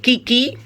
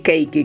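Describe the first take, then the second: First: The first syllable sounds like 'kee'. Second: The first syllable sounds like 'kay'. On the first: The speaker calls it wrong. "Yo siempre dije kiki, pero la gente se pusieron a criticarme" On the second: The speaker calls it right. "Y di keiki, que ese es el nombre original"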